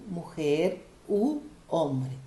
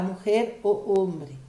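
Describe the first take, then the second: First: "Mujer u hombre" slowly, with oo before hombre; O changed to U. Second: "mujer o hombre" with O running into the O of hombre; clashing O sounds. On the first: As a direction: set a long oo apart in "u" before "hombre". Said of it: "tem que mudar para u". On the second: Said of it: "Aí não dá". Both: Shown as a demonstration.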